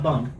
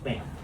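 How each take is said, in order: First: The name is said with an 'uh' vowel. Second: The name is said with an 'ah' vowel. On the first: The speaker calls it wrong. "Heard people say bum. It's not bum" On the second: The speaker calls it right. "It's bam"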